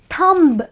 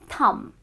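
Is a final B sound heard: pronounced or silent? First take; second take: pronounced; silent. First: A final B sound is pronounced. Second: No final B sound is heard. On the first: The speaker calls it wrong. "is not thumb" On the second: The speaker calls it right. "it is thumb"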